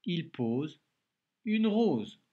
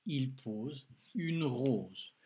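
First: Higher, louder, brisk reread of the sentence; cheerful reread. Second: Very slow, each word set apart; slow dictation reading. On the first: Teacher rereads the sentence with the pupil, brightly and loud. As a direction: read it back together brightly to finish. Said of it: "on relit ensemble". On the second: Teacher dictates the sentence to a pupil, very slowly. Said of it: "Allez, prends de quoi écrire". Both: Shown as a demonstration.

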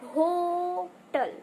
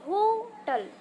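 First: hotel drawn out slowly, weight on the ओ; stress on the o. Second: hotel said higher, punch on the ओ; stress on the o. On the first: Teacher models hotel for the class, stress on ओ. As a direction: lean into the ओ of hotel, h barely there. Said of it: "जोर किस पर देंगे, ओ". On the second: Teacher repeats hotel, stressing the vowel. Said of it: "force दिया वो हा की जगह हमने किसी वॉवेल्स वर्ड पे". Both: Shown as a demonstration.

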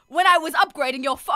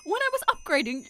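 First: Loud, forward character read; louder attempt at a game character; wrong character voice. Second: Higher-pitched character attempt; high, less forceful game-character read; still-wrong character voice. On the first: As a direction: put it on too hard. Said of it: "wrong voice". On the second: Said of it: "it's still wrong".

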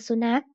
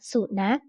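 First: Said in the usual way. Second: สุนัข sounded out syllable by syllable; reading pronunciation. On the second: Shown as a demonstration. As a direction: read สุนัข as two separate syllables, su-nak. (อ่าน สุนัข แยกทีละพยางค์) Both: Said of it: "อ่านว่า".

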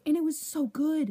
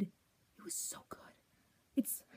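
First: Said in the usual way. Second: Slow, breathless whispered adoration; reverent whisper. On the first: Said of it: "repeats as whisper". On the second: Real, not acted. Fan whispering to camera how good the show was. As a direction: whisper it like a secret treasure.

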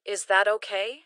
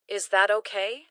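Both takes have the same delivery.

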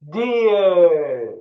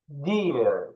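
First: Loud, high, drawn-out "Deer"; full teaching shout, falling at the end; much louder voice. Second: Said in the usual way. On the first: Shown as a demonstration. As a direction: shout the word long for pupils to echo. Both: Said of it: "Daha yüksek sesle".

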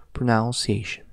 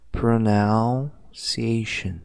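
First: Said in the usual way. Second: Pronunciation very slow, opening with pronoun; slow correct model. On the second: Shown as a demonstration. Teacher showing the class the correct pronunciation slowly. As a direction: lay out pronunciation one sound at a time. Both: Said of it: "como que a gente vai pronunciar".

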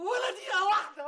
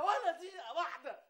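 First: Firm loud refusal. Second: Said in the usual way. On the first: Acted. Husband refuses, excited outburst.

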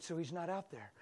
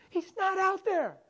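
First: Soft, calm question; gentle. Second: High, slow cry; screaming. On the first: Pastor gently questioning the upset girl. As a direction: ask it gently, smiling. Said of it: "I stayed gentle and smiled". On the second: Girl screaming back at the pastor. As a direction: yell it back, drawn out. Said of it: "screaming at the pastor". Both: Retold or imitated.

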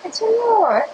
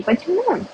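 First: High, excited why. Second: A first, lighter try at an excited why; asking why with a little rise of excitement. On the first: Reading out a chat request, asking why in a full excited voice, pitched high. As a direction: throw the why up high, all worked up. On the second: Reading out a chat request, asking why in a mildly excited voice. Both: Pretend. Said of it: "взволнованным".

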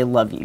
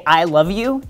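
First: Low, soft, offhand love-you; understated, noncommittal male affection; guy-style casual. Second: Said in the usual way. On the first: Shown as a demonstration. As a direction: toss it off low and quiet, like a guy. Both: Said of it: "The most guy way to say".

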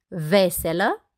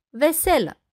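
First: "Veselă" stressed on the first syllable, VE-se-lă, slow with a final rise; "Veselă" with front stress, left rising. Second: "veselă" stressed on the second syllable, ve-SE-lă, higher then falling; "veselă" with middle stress, closing fall. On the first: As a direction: say "Veselă" slowly as VE-selă, meaning cheerful. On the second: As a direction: say "veselă" as ve-SE-lă, meaning tableware. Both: Shown as a demonstration. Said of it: "următoarele omografe".

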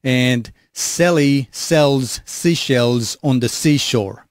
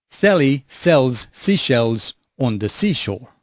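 First: "Sally sells seashells on the seashore" said slowly with long, hissing s sounds; harsh hissy s sounds. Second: "Sally sells seashells on the seashore" said slowly with soft, tamed s sounds; clean soft s sounds. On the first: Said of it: "let's do some sibilance test". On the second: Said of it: "Nice and clean S's without too much sibilance". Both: Shown as a demonstration.

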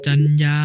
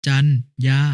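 First: Said in the usual way. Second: จัน, pause, ยา, two separate syllables; syllable-by-syllable reading. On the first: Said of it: "คำว่า". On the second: Shown as a demonstration. Brother giving an example reading, syllable by syllable: จัน ยา. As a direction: break it into จัน and ยา. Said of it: "อ่านว่า".

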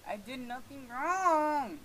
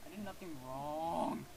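First: High, loud, drawn-out whine; escalated, exasperated plea of innocence; wailing protest. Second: Subdued protest. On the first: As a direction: wail it with WRONG stretched. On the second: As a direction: protest slowly, in a small way. Pleads innocence to the game. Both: Real, not acted.

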